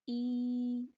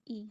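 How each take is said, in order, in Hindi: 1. स्वर को लंबा खींचा गया है। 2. स्वर छोटा और एक जैसा है। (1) "अगर हम इसको ज़्यादा खींच के अदा करते हैं तो फिर इसमें साथ या लग जाती है" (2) "हमज़ा ज़ेर ई है"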